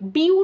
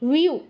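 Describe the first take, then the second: First: It begins with a b sound. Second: It begins with a w sound. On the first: The speaker calls it wrong. "বিউ নয় আবার" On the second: The speaker calls it right. "এটা কিন্তু অন্তস্থ ব"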